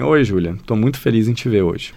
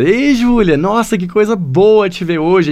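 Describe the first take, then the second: First: Monotone greeting with no melody; flat, no intonation. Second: High, bright-toned warm greeting; lively intonation. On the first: Teacher demonstrating a greeting without intonation, flat. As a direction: say it flat, no feeling at all. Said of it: "imagina eu falar assim". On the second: Teacher showing the same greeting with lively intonation. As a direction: greet her with real joy in the melody. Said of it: "A diferença, fala". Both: Shown as a demonstration.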